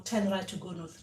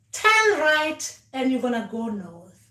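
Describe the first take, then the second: First: Quiet echo. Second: Slow, spelled-out directions; slow instruction. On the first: Dreamer repeating the ancestors' directions, softly. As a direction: murmur it back obediently. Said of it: "and you go". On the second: Ancestors giving step-by-step directions, slow and careful. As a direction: lay out each step slowly like a guide. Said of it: "not just give us instructions and saying". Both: Shown as a demonstration.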